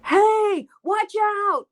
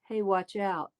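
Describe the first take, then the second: First: The phrase is yelled loudly, with projection. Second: The phrase is said softly, without projection. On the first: The speaker calls it right. "You'd yell it loud" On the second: The speaker calls it wrong. "You wouldn't go"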